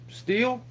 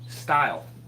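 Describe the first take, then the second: First: The vowel sounds like 'ee', rhyming with 'meal'. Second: The vowel sounds like 'eye', rhyming with 'mile'.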